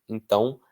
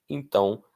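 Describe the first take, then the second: The two takes are said the same way.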